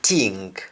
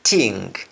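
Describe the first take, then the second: The two takes are said the same way.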